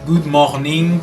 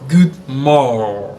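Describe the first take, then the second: First: The R in morning is weak. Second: The R in morning is strongly stressed. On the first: The speaker calls it wrong. "à l'école, on disait good morning" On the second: The speaker calls it right. "En anglais, on accentue beaucoup la lettre R"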